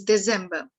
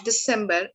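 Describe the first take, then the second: First: December said "de-ZEM-ba"; German pronunciation. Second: Said in the usual way. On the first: Shown as a demonstration. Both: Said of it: "month's name in German".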